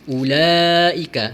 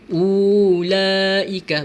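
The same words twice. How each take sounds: First: The first vowel is said short. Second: The first vowel is drawn out long. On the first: The speaker calls it right. "kita perlu baca pendek sajalah" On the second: The speaker calls it wrong. "bukan ulaika. Bukan macam tu"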